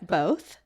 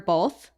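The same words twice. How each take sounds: First: The word has no L sound. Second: The word has an added L sound. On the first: "instead of both" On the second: "I add an L into it"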